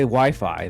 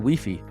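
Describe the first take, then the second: First: It is said with an English pronunciation. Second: It is said with a Spanish pronunciation. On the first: "they don't say Wi-Fi" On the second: "if you go to Latin America, they say Wi-Fi"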